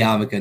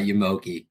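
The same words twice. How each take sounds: First: The word is said in its common spoken form. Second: The word is sounded out letter by letter. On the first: The speaker calls it right. "It's definitely yarmulke" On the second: The speaker calls it wrong. "not yarmulke"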